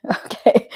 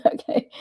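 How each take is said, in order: First: Breathy laugh through the word; laughing okay. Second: Said in the usual way. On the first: Real, not acted. Laughing at a chat comment.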